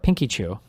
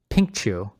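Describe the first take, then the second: First: An extra 'ee' syllable follows 'pink'. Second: No extra syllable follows 'pink'. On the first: The speaker calls it wrong. "How was I saying it wrong?" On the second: The speaker calls it right. "Why did I invent another Y?"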